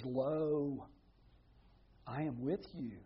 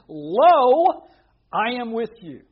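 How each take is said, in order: First: Low, soft, measured quotation; solemn quiet promise. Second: Loud, raised preacher's cry; ringing proclamation. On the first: Preacher quoting Jesus's promise to his followers, hushed and solemn. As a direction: lower the voice and let each phrase settle. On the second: Preacher proclaiming Jesus's promise to fearful Gideon, loud and emphatic. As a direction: boom out the first word, then hold the force. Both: Retold or imitated.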